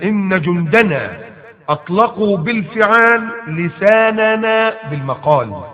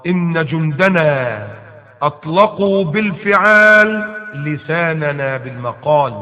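First: Sung slowly with a rising melodic lift; chanted verse. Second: Slow, measured recital of the verse; slow recitation. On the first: Preacher repeating the verse to his audience, sung as a chant. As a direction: chant the line like a song, savouring it. الله. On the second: Preacher reciting the verse to his listeners, slow and measured. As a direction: weigh each word as you recite it. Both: Shown as a demonstration.

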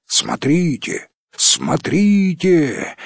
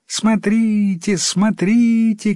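First: Slow, drawn-out grown-up calls; adults calling out. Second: Put-on high, drawn-out children's cries; children calling out. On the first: Grown-ups in another village spot the frog, drawn-out calling. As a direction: stretch it out, calling less high than children. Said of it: "кричали в другой деревне взрослые". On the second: Village children spot the flying frog, high drawn-out calling. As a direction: call out high and slowly like village kids. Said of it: "кричали дети в одной деревне". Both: A narrator's reading.

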